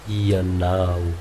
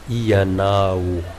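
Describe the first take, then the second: Both takes have the same delivery.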